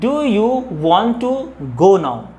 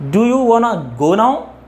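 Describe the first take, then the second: First: 'Want to' is said as two full words. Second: 'Want to' is run together as 'wanna'. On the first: "without contraction" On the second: "how can we pronounce?"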